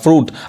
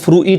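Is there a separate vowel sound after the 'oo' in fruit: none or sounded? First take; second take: none; sounded. First: It is one syllable with no extra vowel. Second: It has an extra 'i' vowel sound after 'oo'. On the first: The speaker calls it right. "यहाँ पे जो आई है वो silent है, फ्रूट पढ़ाएगा" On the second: The speaker calls it wrong. "अब इसको फ्रूइट नहीं कहेंगे"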